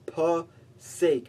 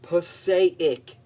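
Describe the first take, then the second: First: It uses the local residents' pronunciation. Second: It uses the newscaster-style pronunciation. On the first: This is how people who live there say it. The speaker calls it right. "It's Passaic, man" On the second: This is how outsiders on the news say it. The speaker calls it wrong. "It's not Passaic"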